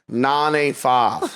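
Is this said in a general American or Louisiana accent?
Louisiana. It is said in a Louisiana accent, further back. "a Louisiana person would say nine eight five. You hear how it's just like in the back?"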